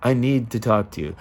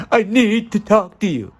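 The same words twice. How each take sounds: First: Said in the usual way. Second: Much higher, urgent reading of "I need to talk to you". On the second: Shown as a demonstration. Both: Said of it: "how it can change so quickly just in the tone".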